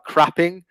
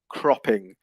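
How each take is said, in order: First: The first vowel is an open 'ah' sound. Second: The first vowel is a rounded 'oh' sound. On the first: The speaker calls it wrong. "more of an ah, more like crapping" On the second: The speaker calls it right. "rather than oh cropping"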